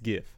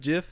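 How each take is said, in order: First: The word begins with a hard g sound. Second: The word begins with a soft j sound. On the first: The speaker calls it right. "It's GIF" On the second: The speaker calls it wrong. "If anyone says JIF, you're dumb"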